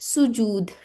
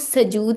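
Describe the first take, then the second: First: The first vowel is a 'u' sound. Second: The first vowel is an 'a' sound. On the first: The speaker calls it right. "बल्कि ये क्या है, सुजूद" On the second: The speaker calls it wrong. "अब इसको सजूद नहीं कहना"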